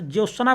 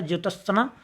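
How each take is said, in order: First: ज्योत्सना run together as "jyosna"; common misreading. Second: ज्योत्सना with the t sounded, "jyot-sna"; correct pronunciation. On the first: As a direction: drop the t in ज्योत्सना. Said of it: "ज्योत्सना पढ़ते". (ज्योत्सना में त गायब) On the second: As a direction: separate the t clearly in ज्योत्सना. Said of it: "जबकि शुद्ध होता है". (ज्योत्सना में त साफ़ बोलकर) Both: Shown as a demonstration.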